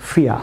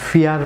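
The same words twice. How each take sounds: First: ফিয়া with no r at the end; silent final r. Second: ফিয়ার with the final r sounded; common mispronunciation. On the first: Teacher corrects viewers, ফিয়া with the r dropped. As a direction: end ফিয়া on an open "aa" vowel. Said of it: "এটি হবে ফিয়া". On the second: Teacher shows viewers a common error, r sounded in ফিয়ার. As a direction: say ফিয়ার ending on a clear r. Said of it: "আমরা ফিয়ার pronounce করে থাকি". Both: Shown as a demonstration.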